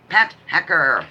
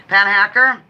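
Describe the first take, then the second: First: Said in the usual way. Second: Pat Hacker called out louder, rising on Hacker; called out brightly. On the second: Shown as a demonstration. Host calling a viewer's name, bright rising call-out. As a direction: announce Pat Hacker like a winner, lifting Hacker.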